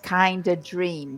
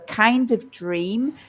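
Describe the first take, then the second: First: Kind of is reduced, with no f sound. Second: Kind of is said in full, with the f.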